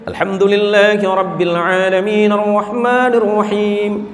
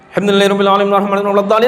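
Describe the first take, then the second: First: It is recited at a medium pace. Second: It is recited extremely fast, rushed.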